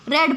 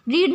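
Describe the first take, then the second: First: The vowel is a short 'e' sound. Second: The vowel is a long 'ee' sound. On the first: It is the past-tense or past-participle form. "Second form में इसको रेड पढ़ते हैं" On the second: It is the present-tense form. "जब हम first form लिखते हैं तभी हम रीड पढ़ते हैं"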